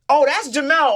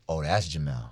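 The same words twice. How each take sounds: First: The tone is warm and admiring. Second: The tone is cold and disapproving. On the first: The person is well regarded. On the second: The person has a bad reputation.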